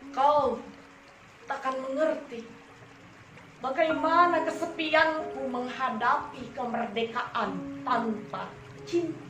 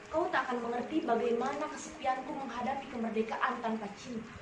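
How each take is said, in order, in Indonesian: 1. Baris ini dibaca dengan tempo yang terukur dan sedang. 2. Baris ini dibaca terlalu cepat. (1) "kalian harus menggunakan rima dan irama yang tepat" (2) "kalian membacakan puisi terlalu cepat. ... Itu terlalu cepat"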